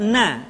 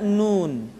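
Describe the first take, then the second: First: The word ends with an open vowel. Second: The word ends with an n sound. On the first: The speaker calls it wrong. "tidak dibaca na" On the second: The speaker calls it right. "tapi dibaca nun"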